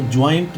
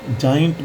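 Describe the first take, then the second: First: ज्वाइंट with a "w" glide, jwaaint; wrong pronunciation. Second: जाइंट with plain "jaa", jaa-int; corrected pronunciation. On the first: Teacher shows students what not to say, wrong pronunciation. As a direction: put a w after the j in ज्वाइंट. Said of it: "इसको ज्वाइंट नहीं बोलेंगे". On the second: Teacher gives students the right form, corrected pronunciation. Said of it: "जाइंट बोलेंगे". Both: Shown as a demonstration.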